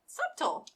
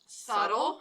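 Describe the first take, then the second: First: It is said the way it is spelled. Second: It is said with the standard pronunciation. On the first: The speaker calls it wrong. "she pronounced it for so many years and never heard it out loud by just reading" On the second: The speaker calls it right. "it's actually pronounced subtle"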